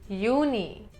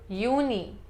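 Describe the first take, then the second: No difference in how they are said.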